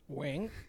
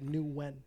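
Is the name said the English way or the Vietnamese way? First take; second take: Vietnamese; English. First: The name is said with a Vietnamese pronunciation. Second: The name is said with an English pronunciation. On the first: This is how native speakers say it. "So how would one of your people say it?" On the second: This version suits people who don't speak the language. "They can't speak my language. So I say Nguyen"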